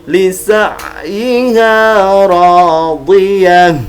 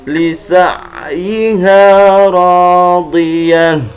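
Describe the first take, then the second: Both takes have the same delivery.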